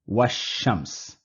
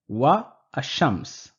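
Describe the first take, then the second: First: Wa runs straight into shams without a break. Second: A break separates wa from ash-shams. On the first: The speaker calls it right. "our pronunciation will become washams" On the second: The speaker calls it wrong. "there is a bit of a interruption here"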